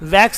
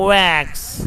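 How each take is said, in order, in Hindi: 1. यह V ध्वनि से शुरू होता है। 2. यह गोल होंठों वाली W ध्वनि से शुरू होता है।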